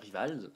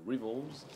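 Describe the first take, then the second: First: It is said with a French pronunciation. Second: It is said with an American pronunciation. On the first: "la française" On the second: "à l'américaine"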